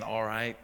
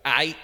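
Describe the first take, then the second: First: Said in the usual way. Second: "Aight" with the "l" swallowed, blurted louder and higher; swallowed syllables. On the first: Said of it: "instead of saying". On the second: Retold or imitated. Preacher showing how Galileans swallowed syllables: loud, high "Aight". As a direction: squash "All right" into a single "Aight". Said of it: "they'd just be like".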